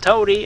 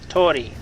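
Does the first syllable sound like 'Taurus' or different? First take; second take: different; like Taurus. First: The first syllable sounds unlike the start of 'Taurus'. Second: The first syllable sounds like the start of 'Taurus'. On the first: The speaker calls it wrong. "If you're a Stargate S G one fan, then you can say it Tauri" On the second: The speaker calls it right. "The correct pronunciation of the system I am in is Tory, like Taurus"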